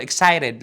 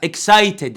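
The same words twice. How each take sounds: First: "excited" with the t softened to a tapped r sound; accented pronunciation. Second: Said in the usual way. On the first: Shown as a demonstration. Teacher shows the accent he will not use, tapped t. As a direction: say "excited" as eksai-red. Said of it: "انا ماليش دعوه بالاكسنت". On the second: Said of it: "لا excited عادي".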